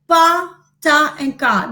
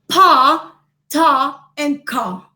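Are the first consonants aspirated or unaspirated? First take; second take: unaspirated; aspirated. First: The consonants are released without a puff of air. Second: The consonants are released with a puff of air. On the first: The speaker calls it wrong. "They are not produced" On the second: The speaker calls it right. "They are produced with greater effort"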